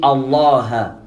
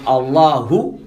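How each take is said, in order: First: The word ends without the final u vowel. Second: The word ends with a final u vowel. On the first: The speaker calls it wrong. "il dit Allah. ... Mais c'est pas correct" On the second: The speaker calls it right. "Au lieu de dire Allahu"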